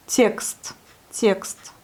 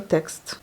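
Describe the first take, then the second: First: Texte said as tyekst; audible yé sound. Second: Said in the usual way. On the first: Shown as a demonstration. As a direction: glide a clear y into the e of texte. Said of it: "on entend bien le yé". (yé bien audible) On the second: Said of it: "c'est le texte".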